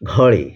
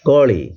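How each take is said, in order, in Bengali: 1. প্রথম ব্যঞ্জনটি মহাপ্রাণ, এতে শ্বাসের ফুৎকার আছে। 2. প্রথম ব্যঞ্জনটি অল্পপ্রাণ, এতে শ্বাসের ফুৎকার নেই।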